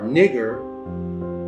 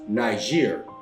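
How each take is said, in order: First: The first syllable has a short 'i' sound. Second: The first syllable has a long 'eye' sound. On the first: The speaker calls it right. "it's pronounced the same way" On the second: The speaker calls it wrong. "your slave master told you it was pronounced Niger"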